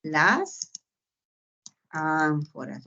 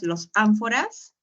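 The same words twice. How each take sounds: First: Correct answer. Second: "los ánforas" asked with a rising, testing tune; doubtful wrong guess. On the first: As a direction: confirm it calmly, falling. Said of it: "tú dirás". (respuesta correcta, más baja y tranquila) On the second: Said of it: "No, tú dirás". (pregunta dudosa con tono ascendente) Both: Shown as a demonstration.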